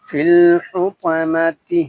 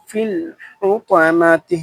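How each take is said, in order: The two takes are said the same way.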